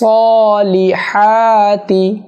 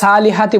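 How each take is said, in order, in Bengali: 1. প্রথম ধ্বনিটি ভারী, emphatic s। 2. প্রথম ধ্বনিটি হালকা, সাধারণ s। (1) "স সলিহাতি" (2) "সদ সিন্না অর্থাৎ সালিহাতি বলা যাবে না"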